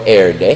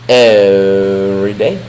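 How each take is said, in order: First: The word 'every' is squeezed into 'air'. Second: The word 'every' is said in full.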